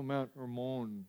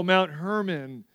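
First: Hermon said er-MOAN, no h, stress on the last syllable; soft, quiet Israeli Hermon, er-MOAN; Hebrew pronunciation. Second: Said in the usual way. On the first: Shown as a demonstration. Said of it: "Sounds really prettier that way". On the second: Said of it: "So you go".

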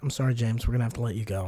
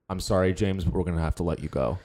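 First: Much lower and much softer firing line; deadpan firing. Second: Low, cold firing line; firing someone. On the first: Repeating the layoff line to the cohost, deep and hushed. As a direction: mumble the layoff with dead eyes. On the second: A boss coldly firing James, low and flat. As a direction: deliver the layoff like a dead-eyed boss. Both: Shown as a demonstration. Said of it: "say this with me".

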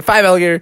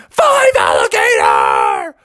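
First: Said in the usual way. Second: Long, strained cartoon holler; drawn-out acted yell; shouted. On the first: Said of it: "He counted five alligators". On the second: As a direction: shout it out slowly, stretching each word. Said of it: "when Bubby shouted".

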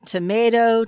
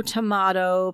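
First: Tomato said tuh-MAY-toh. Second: Tomato said tuh-MAH-toh. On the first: Comparing ways words are pronounced, tomato as tuh-MAY-toh. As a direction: say tomato with a long A in the middle. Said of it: "similar to how we say". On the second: Comparing ways words are pronounced, tomato as tuh-MAH-toh. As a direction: say tomato with a broad "ah" in the middle. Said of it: "there are different ways". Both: Shown as a demonstration.

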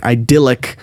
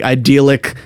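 First: "idyllic" with a short i in the middle; "idyllic", second syllable rhyming with "dill"; alternative pronunciation. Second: "idyllic" with a long ee in the middle; "idyllic", second syllable rhyming with "deal"; alternative pronunciation. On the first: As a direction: say "idyllic" as eye-DILL-ick. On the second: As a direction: say "idyllic" as eye-DEE-lick. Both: Shown as a demonstration. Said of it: "uh, or idyllic".

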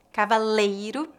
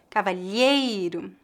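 First: Cavaleiro, ca-va-LEI-ro with a clear L. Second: Cavalheiro, the LH like an L blended with a Y glide. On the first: Teacher models the word for students to repeat, clear and careful. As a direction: say "Cavaleiro" with a plain L sound. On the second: Teacher contrasts it with cavaleiro, slow and careful. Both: Shown as a demonstration. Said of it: "Repita depois de mim".

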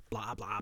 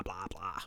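First: Said in the usual way. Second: Blah blah trailing off into a whisper. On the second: Retold or imitated.

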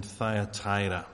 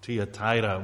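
First: "Thyatira" said with initial "thigh-a"; usual pronunciation. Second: "Thyatira" said with initial "tee-a"; alternative pronunciation. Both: Shown as a demonstration. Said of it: "couldn't quite work out the pronunciation".

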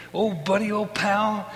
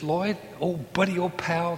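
First: Louder, higher buddy greeting; imitating Daniel loudly. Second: Lightly voiced cheerful friend, a touch higher; imitating Daniel. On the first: Daniel greeting his buddy, hammed up louder. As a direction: beam it out like an old pal. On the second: A hint of Daniel greeting the narrator fondly. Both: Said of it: "that's the way he spoke".

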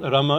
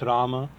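First: "Rama" said as "rumma"; short first A. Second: "Rama" said as "Raama"; "Rama" with a long, clear first A. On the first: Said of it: "it's Rama". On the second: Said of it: "It's not Rama". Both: Shown as a demonstration.

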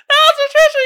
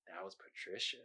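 First: Very high, loud squeal; cracked-up comic shriek; hysterical shriek. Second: Low, barely voiced reveal; hushed, ominous confession; deadpan creepy punchline. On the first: Pretend. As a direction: scream it in giddy hilarity. Repeats punchline, cracking up. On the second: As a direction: let it out very softly, deadpan. Reading the meme's punchline.

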